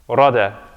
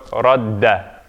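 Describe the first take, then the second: First: The d sound is short and single. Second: The d sound is held long and doubled. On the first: "If there's no shadda there, it's rada" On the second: "If there's shadda, then it's double"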